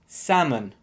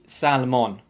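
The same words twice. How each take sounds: First: The L is silent, with a schwa vowel. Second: The L is pronounced in the word. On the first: The speaker calls it right. "so it should be salmon" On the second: The speaker calls it wrong. "don't say salmon. You have to drop the L"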